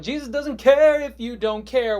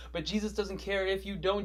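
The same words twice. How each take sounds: First: Loud, high, drawn-out cry; shouted refrain. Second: Said in the usual way. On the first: Acted. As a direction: belt it out slowly as the climax. Third take, refrain at its peak.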